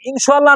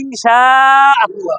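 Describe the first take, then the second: First: The words run together into one word. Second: The two words are said fully and separately. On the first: The speaker calls it wrong. "ইনশাল্লাহ না" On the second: The speaker calls it right. "ভালো করে বলেন"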